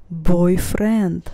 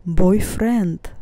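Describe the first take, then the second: No difference in how they are said.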